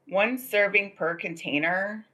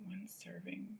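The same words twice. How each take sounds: First: Reading the label slowly. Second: Breathless unvoiced whisper of One serving. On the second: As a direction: hush it like a secret in disbelief. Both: Shown as a demonstration.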